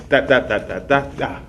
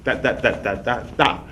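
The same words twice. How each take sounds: The two takes are said the same way.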